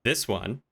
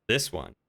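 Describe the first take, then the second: No difference in how they are said.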